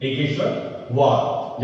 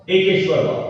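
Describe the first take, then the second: First: एकेश्वरवाद said slowly, syllable by syllable, softer; slow dictation. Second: Said in the usual way. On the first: Shown as a demonstration. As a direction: spell out एकेश्वरवाद slowly so the kids can write it. (एकेश्वरवाद को धीरे-धीरे, लिखवाने के अंदाज़ में)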